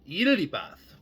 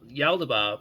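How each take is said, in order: First: The name begins with an 'eel' sound. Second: The name begins with a 'yal' sound. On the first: This is the true way to say it. The speaker calls it right. "the actual way to pronounce this ... like the animal eel" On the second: This is how people commonly say it. The speaker calls it wrong. "people do call this being"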